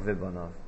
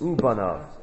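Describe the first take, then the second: First: The word begins with a 've' sound. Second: The word begins with a 'u' sound. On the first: The speaker calls it wrong. "Not the crazy ve placey" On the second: The speaker calls it right. "Crazy ooh placey"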